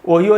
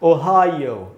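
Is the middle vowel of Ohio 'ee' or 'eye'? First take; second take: ee; eye. First: The middle syllable has an 'ee' vowel. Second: The middle syllable has an 'eye' vowel. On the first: The speaker calls it wrong. "ओहियो नहीं होगा दोस्तों" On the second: The speaker calls it right. "ये इसका शुद्ध उच्चारण है ओहायो"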